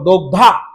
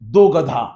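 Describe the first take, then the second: First: It is said with g and dh joined together. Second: It is split, with a vowel between g and dh. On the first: One who milks. The speaker calls it right. "दला एक काना आघात कर म्हणे गचा धावर" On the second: Two donkeys. The speaker calls it wrong. "तो म्हणे बेटा पुता ऐसे नाही"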